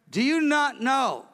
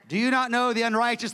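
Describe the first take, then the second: First: It is read in a tearful, grieving tone. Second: It is read in a harsh, vindictive tone.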